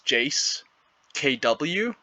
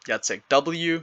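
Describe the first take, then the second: First: The name is split into Jace and a letter K. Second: The name Jacek is said as one word. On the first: The speaker calls it wrong. "I always thought it was Jace K W" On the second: The speaker calls it right. "the way you pronounce his name is Jacek"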